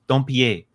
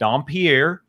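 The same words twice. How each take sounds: First: The surname gets a fancier, French-style pronunciation. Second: The surname gets a plain American pronunciation. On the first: It is the technically correct form. "if I'm trying to feel feel fancy, I do Dompier because that is technically correct" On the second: It suits an American audience. "If I'm got a hardcore American crowd, I'm going Dompier"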